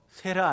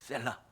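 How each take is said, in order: First: The middle consonant is a single light flap. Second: The middle consonant is a long, held L. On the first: The speaker calls it wrong. "세라 아니고" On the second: The speaker calls it right. "셀라예요"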